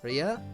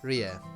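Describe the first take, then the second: First: The final vowel is a short uh sound. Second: The same.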